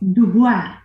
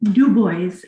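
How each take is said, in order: First: The name is pronounced with French sounds. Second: The name is pronounced with English sounds. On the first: The speaker calls it right. "in French is Dubois" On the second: The speaker calls it wrong. "I still am horrified when people say"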